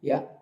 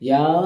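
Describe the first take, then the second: First: The vowel is kept short. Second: The vowel is drawn out long. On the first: The speaker calls it right. "ఇలా పలకటం అలవాటు చేసుకోండి" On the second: The speaker calls it wrong. "ఇలా దీర్ఘాలు తీస్తూ"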